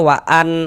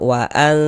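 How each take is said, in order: First: The n sound is pronounced clearly. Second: The n sound is concealed and nasalized. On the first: The speaker calls it wrong. "jangan dibaca waan, waan jelas gitu, jangan" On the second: The speaker calls it right. "non sukunnya dibaca samar"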